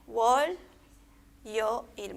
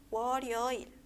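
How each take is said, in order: First: "wol, yo, il" as three separate syllables, long pause after wol. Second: "wo, yo, il" run together as one word, final consonant joined onward; linked reading. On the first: Teacher reading for students por sílaba, "wol, yo, il" split apart. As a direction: read "wol", "yo", "il" one at a time. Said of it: "Vamos a leer por sílaba". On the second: Teacher showing cómo vamos a leer, "wo, yo, il" linked smoothly. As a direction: glide through "wo, yo, il" without breaks. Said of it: "Vamos a leer así". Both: Shown as a demonstration.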